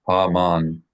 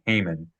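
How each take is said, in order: First: The name is said with Hebrew pronunciation. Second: The name is said with English pronunciation. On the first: "to help assist a person read it in the, the correct way" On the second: "people usually call his name in English Haman"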